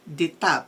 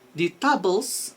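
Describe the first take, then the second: First: The final S sound is silent. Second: The final S sound is pronounced. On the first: The speaker calls it right. "the correct word that we have to read" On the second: The speaker calls it wrong. "no, it's wrong"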